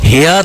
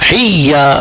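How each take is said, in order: First: The y sound is short and single. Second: The y sound is held and doubled. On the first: The speaker calls it wrong. "হিয়া তো বলবে না" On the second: The speaker calls it right. "তু ইয়াকে ডবল পড়তে হবে"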